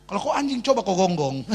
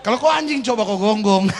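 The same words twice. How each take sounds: First: Said in the usual way. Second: Louder, laughing through the taunt; laughing punchline. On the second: Real, not acted. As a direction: say it while cracking up.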